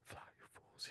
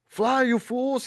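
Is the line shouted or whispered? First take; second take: whispered; shouted. First: The line is said in a whisper. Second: The line is cried out loudly.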